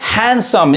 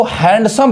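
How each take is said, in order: First: हैंडसम with no d, "han-sum"; हैंडसम as "HAN-sum", d left out; silent D. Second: हैंडसम with the D sounded; हैंडसम misread with every letter voiced; wrong pronunciation. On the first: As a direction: say हैंडसम dropping the d. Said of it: "डी यहाँ पे चुप है". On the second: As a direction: say हैंडसम with an audible d, "hand-sum". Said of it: "बहुत लोग गलत पढ़ते हैं". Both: Shown as a demonstration.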